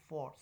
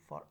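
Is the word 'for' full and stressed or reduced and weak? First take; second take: full; reduced. First: The word is stressed with a full vowel. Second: The word is unstressed with a schwa vowel. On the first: "So is the stress on the o. So this is the strong form" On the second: "for is less stress. So the word here is uh, schwa sound"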